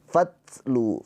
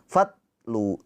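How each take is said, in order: First: The t is released with a little breath. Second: The t is released with no breath. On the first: The speaker calls it right. "fatlu tuh ada aliran nafasnya sedikit" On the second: The speaker calls it wrong. "Jangan fatlu ya"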